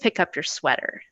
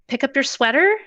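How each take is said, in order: First: The voice goes down at the end. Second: The voice rises at the end like a question. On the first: It sounds like a firm statement. The speaker calls it right. "make our voices go down" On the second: It sounds like an option. The speaker calls it wrong. "like it's a question, like it's an option"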